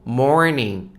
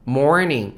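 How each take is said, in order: First: The R sound after the vowel is pronounced. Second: The R sound after the vowel is pronounced.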